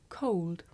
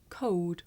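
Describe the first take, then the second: First: "Cold" with the L fully sounded before the d; touch the tongue tip for the L in "Cold". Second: "cold" with the L melted into the vowel, like "code"; L dropped. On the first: Teacher contrasting two ways to say it, "Cold" with L sounded. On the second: Teacher showing the L sound disappear, "cold" without L. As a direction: say "cold" with no tongue-tip L. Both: Shown as a demonstration. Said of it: "make the L sound disappear".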